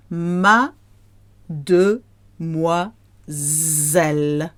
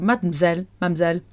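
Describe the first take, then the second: First: "Mademoiselle" split as ma-de-mwa-zelle with pauses; ma... de... mwa... zelle, spelled out slowly; slow, syllable by syllable. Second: "mademoiselle" clipped to "mam-zelle"; quick two-syllable "mademoiselle", middle swallowed; fast, contracted. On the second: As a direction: run "mademoiselle" together quickly as mad-m'zelle. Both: Shown as a demonstration. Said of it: "When you hear it fast".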